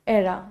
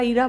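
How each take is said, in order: First: The first vowel is an open 'eh' sound. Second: The first vowel is a long 'ee' sound. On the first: The speaker calls it right. "The correct pronunciation pronunciation is एरा" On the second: The speaker calls it wrong. "कुछ बच्चे इसको ईरा ईरा बोलते हैं"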